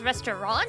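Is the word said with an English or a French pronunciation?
English. It is pronounced the English way. "in English"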